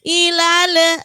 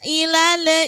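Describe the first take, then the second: Both takes have the same delivery.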